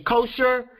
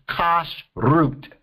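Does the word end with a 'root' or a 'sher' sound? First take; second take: sher; root. First: The word ends with a 'sher' sound. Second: The word ends with a 'root' sound. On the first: "whenever you hear other folks say kosher" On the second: "the way you say it is kosh root"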